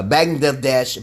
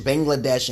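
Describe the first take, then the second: First: Bangladesh slurred with the middle syllable garbled; fumbled Bangladesh; stumbled Bangladesh. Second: Said in the usual way. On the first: Real, not acted. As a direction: trip over the word Bangladesh.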